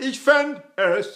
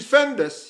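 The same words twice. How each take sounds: First: A clean break comes before the vowel of 'es'. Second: The final consonant runs straight into 'es'. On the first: The speaker calls it right. "where you have to enunciate in front of uh, words that begin with vowels" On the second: The speaker calls it wrong. "You can't say ich fänd es"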